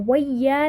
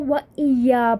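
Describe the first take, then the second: First: 'Wa' runs straight into 'ya' without a stop. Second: A glottal stop separates 'wa' from 'iyya'. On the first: The speaker calls it wrong. "व या नहीं पढ़ा" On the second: The speaker calls it right. "हमने क्या पढ़ा इसको, व इया पढ़ा"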